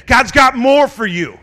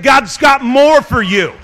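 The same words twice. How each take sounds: First: Said in the usual way. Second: Loud, higher shout, slow; shouted repeat. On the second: Shown as a demonstration. Preacher repeating to the church, full shout. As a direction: call it out again, louder. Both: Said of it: "I said".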